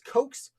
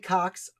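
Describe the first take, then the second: First: The vowel is long, like in coat. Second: The vowel is short, like in box. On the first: The speaker calls it right. "I think his name is Coates" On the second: The speaker calls it wrong. "I used to say Cox. I made a video about him a while back and got chastised for pronouncing it wrong"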